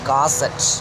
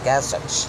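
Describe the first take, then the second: Both takes have the same delivery.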